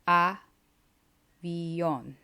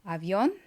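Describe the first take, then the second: First: The word is said at a slower pace. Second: The word is said at a quick pace. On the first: "then I'm going to say it slower" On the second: "I'm going to say it quickly"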